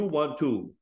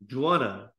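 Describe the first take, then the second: First: The words are said separately and in full. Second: The words blend together into one short form. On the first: "Juana is, do you want to?" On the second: "Connected speech"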